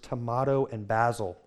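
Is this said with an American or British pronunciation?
British. It is said with a British pronunciation. The speaker conformed to local speech in Scotland. "out of my mouth came the words"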